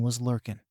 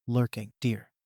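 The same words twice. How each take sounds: First: Lurkin' with the final g dropped, said as lurk-in; clipped lurkin'. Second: Lurking with the full ng sounded out, a little condescending; correcting lurking. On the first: Girl tells the mother of a creepy dude, lurkin' with the g dropped. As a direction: drop the g of lurkin' like a country kid. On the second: Mother corrects the girl's speech, Lurking with a proper ng. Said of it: "Bakugo-sen sneered". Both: Acted.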